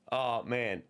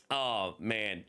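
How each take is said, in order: Both takes have the same delivery.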